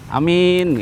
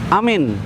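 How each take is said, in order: First: The first vowel is short, the second long. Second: Both vowels are short. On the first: A person who can be trusted. "A-nya pendek, mi-nya panjang" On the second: A state of safety and tranquility. "A-nya pendek, mi-nya pendek"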